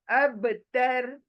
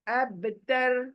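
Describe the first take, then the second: No difference in how they are said.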